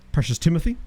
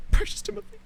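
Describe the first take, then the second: First: Said in the usual way. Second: "Precious Timothy" as a tiny high squeak; squeaky Precious Timothy. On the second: Shown as a demonstration. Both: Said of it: "repeat in different voice".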